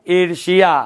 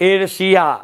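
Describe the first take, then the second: Both takes have the same delivery.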